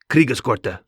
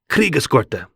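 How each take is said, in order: First: The name is said in a softer, calmer way. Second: The name is said in a harsh, angry-sounding way.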